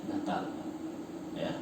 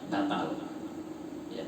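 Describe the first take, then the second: Both takes have the same delivery.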